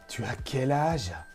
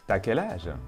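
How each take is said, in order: First: The vowel of tu is fully pronounced. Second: The vowel of tu is dropped before as.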